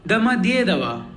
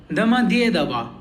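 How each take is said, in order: No difference in how they are said.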